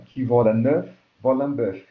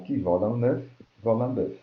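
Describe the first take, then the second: First: French proverb, louder, leaning on "œuf" and "bœuf"; rhyme stressed. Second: Said in the usual way. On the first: Shown as a demonstration. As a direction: punch the rhyming "œuf" and "bœuf" so the rhyme rings out. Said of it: "ele tem rima". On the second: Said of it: "pela repetição do som".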